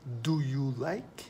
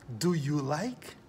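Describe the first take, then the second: First: Whispered Do you like, slow. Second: Said in the usual way. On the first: Shown as a demonstration. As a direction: whisper the question slowly.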